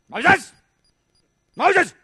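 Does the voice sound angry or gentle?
angry. It sounds stern, like someone in trouble.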